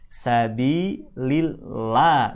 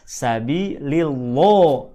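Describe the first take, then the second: First: The 'lah' sounds thin and bright, like 'la'. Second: The 'lah' sounds full and dark, near O. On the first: The speaker calls it right. "dibaca tipis" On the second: The speaker calls it wrong. "bukan sabilillah"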